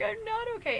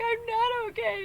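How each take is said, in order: First: Mock crying wail. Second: High, slow, hammed-up crying wail; mock crying wail. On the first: Ron sobs into the phone again in a hammed-up wail. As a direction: whimper it again, still falling apart. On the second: Ron sobs into the phone in a hammed-up crying wail. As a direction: wail it like a big man falling apart. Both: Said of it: "he's screaming and he's crying".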